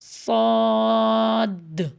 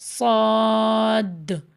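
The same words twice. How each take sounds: Both takes have the same delivery.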